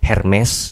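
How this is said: The name is said with a Batak accent. "nah itu mungkin orang Batak mungkin"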